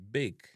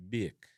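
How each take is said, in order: First: BAKE with a plain long A, "bayk"; English-style "bayk"; English pronunciation. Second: BAKE as "byek", long A turned to "ee-eh"; Jamaican pronunciation. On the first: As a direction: say bake the English way, one steady "ay" vowel. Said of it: "in a English". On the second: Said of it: "in a Jamaican". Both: Shown as a demonstration.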